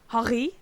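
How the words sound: The name is said in a Dutch way.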